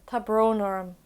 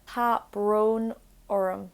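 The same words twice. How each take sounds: First: Said in the usual way. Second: Tá brón orm drawn out slowly; slow teaching repeat. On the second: Shown as a demonstration. Teacher repeats Tá brón orm slowly for learners.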